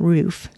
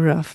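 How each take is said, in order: First: Roof is said a non-Idaho way. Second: Roof is said the Idaho way. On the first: "not roof" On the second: "in Idaho we say roof"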